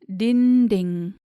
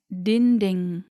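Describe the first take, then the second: Both takes have the same delivery.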